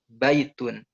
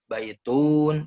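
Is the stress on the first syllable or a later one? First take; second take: first; later. First: The stress is on the first syllable. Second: The stress is on a later syllable. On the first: The speaker calls it right. "Ba-nya ditekan" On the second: The speaker calls it wrong. "bukan baitun, itu salah"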